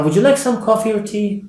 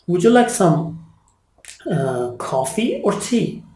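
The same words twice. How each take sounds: First: 'coffee or tea' run together, pitched higher; higher, joined-up 'coffee or tea', expecting yes or no; yes-no question intonation. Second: Coffee lifted, tea falling, pause between; choice question intonation. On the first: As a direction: ask 'coffee or tea' as one offer, no pause. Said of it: "The answer is yes or no". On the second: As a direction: offer two separate options, 'coffee' up, 'tea' down. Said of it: "I'm giving you two options". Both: Shown as a demonstration.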